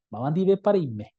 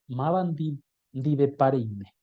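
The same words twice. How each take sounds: First: Said in the usual way. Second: "Mabandi dive parime" said slowly, syllable by syllable; slow model pronunciation. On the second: Shown as a demonstration. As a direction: spell it out slowly for the class. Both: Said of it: "correcta de pronunciar".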